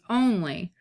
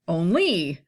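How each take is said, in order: First: The stress is on the first syllable. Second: The stress is on the second syllable. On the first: The speaker calls it right. "trochee is stressed and unstressed" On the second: The speaker calls it wrong. "if it was in iambic, it'd be like only"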